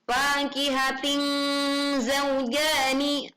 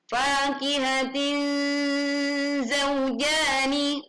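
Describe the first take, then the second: First: The n is not blurred into a nasal an. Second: The n is blurred into a nasal an. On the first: The speaker calls it wrong. "atau fakihatin zaujani, bukan ya" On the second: The speaker calls it right. "yang tepat adalah fakihatin zaujani"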